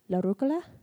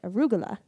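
First: It begins with la and has a k sound. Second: It begins with a and has a g sound. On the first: This is the northern Italian form. "like la instead of a, and then k instead of g" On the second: This is the southern Italian form. "in southern Italy, they pronounced it arugula"

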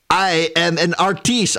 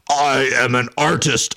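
First: It is said in the speaker's natural voice. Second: It is said in a put-on character voice. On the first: The speaker calls it wrong. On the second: The speaker calls it right.

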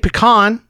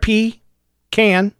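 First: The second syllable sounds like con. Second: The second syllable sounds like can. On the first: The speaker calls it wrong. "Some people say pecan. That would be P-E-C-O-N" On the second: The speaker calls it right. "P-E-C-A-N. It's right there. P-can"

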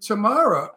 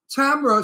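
First: The name is said to sound like tomorrow. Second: The name is said to sound like camera. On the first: "But Tamara sounds like, oh boy, I'm going to see her tomorrow" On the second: "Tamara sounds like a camera"

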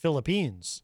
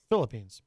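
First: The stress falls in a French-like place. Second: The stress falls in the usual English place.

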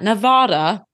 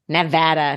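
First: It is said the way outsiders say it. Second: It is said the way local residents say it. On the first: The speaker sounds like an outsider. The speaker calls it wrong. "not Nevada" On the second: The speaker sounds like a local. The speaker calls it right. "if you want people to think you're a local, start saying Nevada"

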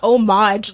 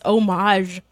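First: The word ends with a hard 'j' sound. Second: The word ends with a soft 'zh' sound. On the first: The speaker calls it wrong. "it's not homage like [name]" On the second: The speaker calls it right. "It's homage like Zhuzh"

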